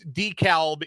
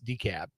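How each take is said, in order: First: The L sound is pronounced in the name. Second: The L sound is left out of the name. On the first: It names the place in Illinois. "in in Illinois" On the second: It names the place in Georgia. "It's silent L"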